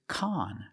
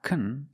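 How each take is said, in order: First: The vowel is an open ah sound. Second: The vowel is a reduced uh sound. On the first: The speaker calls it right. "it's con. We use the short ah sound like hot and stop" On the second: The speaker calls it wrong. "It's not kun, it's not the short sound"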